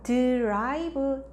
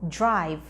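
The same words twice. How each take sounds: First: The start is a clear, separate d sound. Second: The start is quick and sounds like j. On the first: "drive보다는" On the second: "빨리 발음하다 보면 drive, drive. ... 약간 지읒처럼 소리가 들려요"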